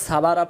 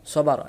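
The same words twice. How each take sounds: First: সাবারা with open "aa" in all syllables; wrong pronunciation. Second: সবা র as "saw-baa-raw"; correct pronunciation. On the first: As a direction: spread every vowel, "saa-baa-raa", in সাবারা. (সাবারা, সবখানে আকার দিয়ে ভুল) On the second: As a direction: round the first and last vowels of সবা র. (সবা র, স আর র গোল করে) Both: Shown as a demonstration. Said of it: "উচ্চারণ ভুল".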